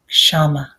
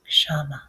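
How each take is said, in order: First: The word is said aloud at full voice. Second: The word is said aloud but more quietly. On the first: "repeat it with me a few times out loud" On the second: "this time a little softer"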